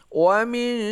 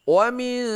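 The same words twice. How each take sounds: Both takes have the same delivery.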